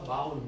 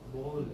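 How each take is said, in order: First: The vowel is said as 'ow', like 'cow'. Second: The vowel is said as 'oh', like 'go'. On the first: The speaker calls it wrong. "બાઉલ નહીં" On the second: The speaker calls it right. "બોલ છે"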